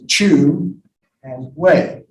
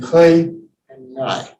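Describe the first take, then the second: First: The words are said with Mandarin pronunciation. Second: The words are said with Cantonese pronunciation. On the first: "if you're doing it in Mandarin or Putonghua, it's pronounced as" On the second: "But if you're in Cantonese"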